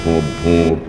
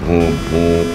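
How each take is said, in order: Both takes have the same delivery.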